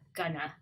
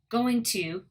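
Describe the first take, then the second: First: The words are reduced to one short form. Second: Both words are said in full.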